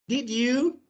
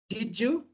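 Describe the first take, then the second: First: The d and y sounds stay separate. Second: The d and y merge into a j sound. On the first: "So in British English, we say" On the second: "But in American English"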